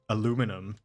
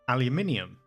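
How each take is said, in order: First: The word is said with four syllables. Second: The word is said with five syllables. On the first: The speaker calls it wrong. "I know that Americans say aluminum" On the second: The speaker calls it right. "so it's aluminium"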